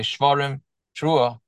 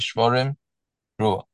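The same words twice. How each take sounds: First: The words run together with no pause. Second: There is a long pause between the words. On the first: The blower should join the blasts together. "or not" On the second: The blower should clearly break between the blasts. "if they really want to break"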